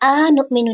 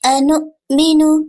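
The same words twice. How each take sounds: First: The opening vowel is stretched out long. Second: The opening vowel is kept short. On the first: The speaker calls it wrong. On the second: The speaker calls it right.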